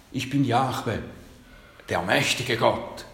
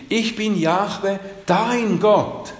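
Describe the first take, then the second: First: Said in the usual way. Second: „dein“ lifted high and loud; stress on dein. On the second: Shown as a demonstration. Preacher stressing God's words to his flock, high and loud. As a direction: lean into „dein Gott“, high and swelling. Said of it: "Aber er sagt".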